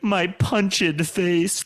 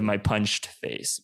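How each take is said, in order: First: The -ed of punched is a separate syllable. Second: The -ed of punched is silent, one syllable. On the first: "you would pronounce the E D" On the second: "instead of"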